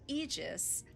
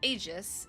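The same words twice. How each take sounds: First: The first vowel is a long 'ee' sound. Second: The first vowel is not a long 'ee' sound. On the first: The speaker calls it right. "Long E sound" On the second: The speaker calls it wrong. "I feel like I mispronounced it the first time around too"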